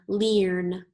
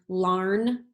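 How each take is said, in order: First: The vowel sounds like the 'ear' in 'hear'. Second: The vowel sounds like the 'ar' in 'car'. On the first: "Let's try it with earn, ear, sorry" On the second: "Let's try it with R. ... that doesn't sound right"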